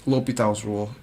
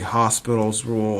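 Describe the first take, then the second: First: No s sound follows the o in the name. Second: An s sound follows the o in the name. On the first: The speaker calls it right. "L'Hopital's rule is what I'll call it" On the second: The speaker calls it wrong. "most people pronounce it wrong, or add an S after the O"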